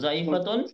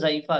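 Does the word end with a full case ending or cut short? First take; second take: full ending; cut short. First: The word ends with the full -atun ending. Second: The word ends cut short on -a.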